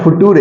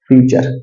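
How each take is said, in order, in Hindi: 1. यह शब्द foo-too-ray जैसा बोला जाता है, जैसा लिखा है वैसा। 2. यह शब्द fyoo-cher जैसा बोला जाता है, ch की आवाज़ के साथ। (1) "वो बोला था फुटूरे, तो कोई कोई ऐसे स्पेलिंग करता है प्रोनाउंसिएशन" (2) "लेकिन वो हो गया क्या, फ्यूचर"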